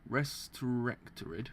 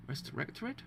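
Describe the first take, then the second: First: "restorectorid" drawn out slowly, part by part; slow, careful attempt at "restorectorid"; sounding out a word. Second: "Restorectorid" said softer in one go, rising at the end; unsure, rising "Restorectorid"; questioning pronunciation. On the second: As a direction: try "Restorectorid" as a quiet question. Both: Shown as a demonstration. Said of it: "Did I pronounce that word?".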